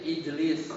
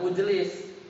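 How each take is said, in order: First: The word begins with an 'i' vowel. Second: The word begins with a 'u' vowel. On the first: The speaker calls it right. "hamzah wasolnya kasroh" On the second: The speaker calls it wrong. "bukan ujlis"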